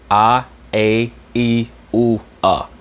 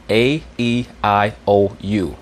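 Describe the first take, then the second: First: "A, E, U, A" as separated pure Latin sounds; Latin vowels. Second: "A, E, I, O, U" spaced out as English letters; English vowels. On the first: Teacher contrasts Latin with English, pure vowels "A, E, U, A". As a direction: recite "A, E, U, A" as ah, ay, ee, oo, with pauses. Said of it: "In Latin, they pronounce the vowels". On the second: Teacher lists five vowels, English-style "A, E, I, O, U". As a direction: sound "A, E, I, O, U" as ay, ee, eye, oh, you. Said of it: "You pronounce it". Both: Shown as a demonstration.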